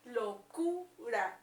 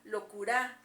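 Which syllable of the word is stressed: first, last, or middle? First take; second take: middle; last. First: The stress is on the middle syllable. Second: The stress is on the last syllable. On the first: The speaker calls it right. "se escucha en la sílaba del medio, en Q ... Locura, entonces es aquí" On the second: The speaker calls it wrong. "En la A, locura, pues tampoco suena de manera correcta"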